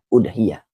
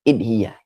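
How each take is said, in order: First: The word begins with a u vowel. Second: The word begins with an i vowel. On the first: "dengan didomahkan hamzahnya" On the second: "atau juga bisa dikasrohkan"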